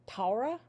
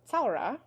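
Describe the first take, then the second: First: Taura with a plain T, no s; plain T variant. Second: Tsaura with an initial ts sound; TS at the start. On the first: Teacher quoting what some people say, plain T. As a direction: start Taura on a simple T and lift the end. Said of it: "So some people say". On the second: Teacher showing the word for summer, initial TS. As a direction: begin tsaura on a ts, like the end of cats. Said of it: "T S, ts, ts". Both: Shown as a demonstration.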